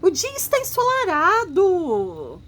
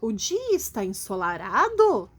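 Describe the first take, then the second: First: It is said as a lively exclamation. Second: It is said as a rising question.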